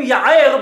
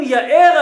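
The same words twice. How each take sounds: First: יער loud, with a throaty ayin in the middle; ayin pronunciation. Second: יאר drawn out, glottal aleph in the middle; aleph pronunciation. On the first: Teacher showing how aleph gets mispronounced, יער with guttural ayin. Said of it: "בעין". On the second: Teacher quoting Rashi on the blessing, יאר with aleph. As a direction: say יאר slowly and loudly with a light aleph. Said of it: "שאם אומרים". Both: Shown as a demonstration.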